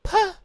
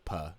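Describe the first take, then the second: First: High, loud squeaked puff; imitated nervous squeak; blurted puh. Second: Said in the usual way. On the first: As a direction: burst out one strangled high syllable. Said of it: "She just says, "Puh". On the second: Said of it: "She just says".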